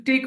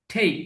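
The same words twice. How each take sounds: First: টেক said with a hard retroflex Bengali ট at the start; wrong pronunciation. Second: টেক said with a light English t at the start; correct pronunciation. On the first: Teacher demonstrates the wrong way to say take, hard retroflex t. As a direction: give টেক the heavy Bengali ট sound as the mistake. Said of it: "টি উচ্চারণ করতাম তাহলে কিন্তু টেক হতো". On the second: Teacher gives the right way to say take, crisp English t. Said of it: "সঠিক উচ্চারণটা হলো". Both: Shown as a demonstration.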